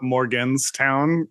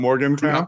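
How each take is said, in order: First: An 's' sound comes before 'town'. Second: No 's' sound comes before 'town'. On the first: The speaker calls it wrong. "I'll call it Morganstown" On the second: The speaker calls it right. "not Morgantown"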